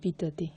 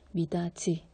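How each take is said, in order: First: The last syllable starts with a 'd' sound. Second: The last syllable starts with a 'j' sound. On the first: The speaker calls it wrong. "그냥 연음만 시키면 이렇게 돼요. 혀 짧은 소리가 나요" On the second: The speaker calls it right. "그래서 미다지 바치 이렇게 바뀌는 거예요"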